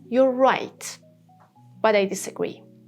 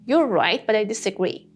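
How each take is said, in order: First: It is said slower, stressing right with a clear T. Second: It is said fast with the words run together.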